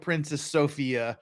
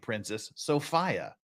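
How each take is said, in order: First: Sophia is said as its spelling suggests. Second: Sophia is said the way British speakers say it. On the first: The speaker calls it wrong. "we're going to say it's Princess Sophia because it's spelled like Princess Sophia" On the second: The speaker calls it right. "Princess Sophia pronounced her name Princess Sophia"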